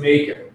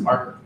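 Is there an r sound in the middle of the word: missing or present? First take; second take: missing; present. First: The word is said without the r sound. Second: The word is said with the r sound. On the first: The brain cannot produce the word correctly. The speaker calls it wrong. "I'm actually saying maker" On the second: The word is produced correctly. The speaker calls it right. "well, it's a marker"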